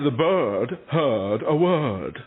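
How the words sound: It is spoken in an English accent. The speaker calls it wrong. "You say"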